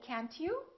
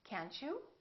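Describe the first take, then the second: First: The T and you stay separate sounds. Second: The T and you blend into ch. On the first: The speaker calls it wrong. "so we don't say can't you" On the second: The speaker calls it right. "This T also becomes kind of a C H sound, ... we say can't you?"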